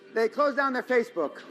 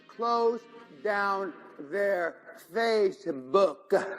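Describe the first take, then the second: First: It is said at normal speed. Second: It is said very slowly.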